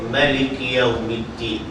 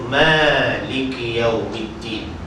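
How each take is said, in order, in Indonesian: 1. Vokal pertama Maliki dibaca pendek. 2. Vokal pertama Maliki dibaca panjang. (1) "majoriti qurra baca pendek" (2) "Yang baca panjang tak ramai. Termasuk imam kita"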